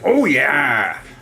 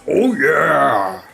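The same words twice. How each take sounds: First: It is said in a normal pitch. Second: It is said in a deeper voice.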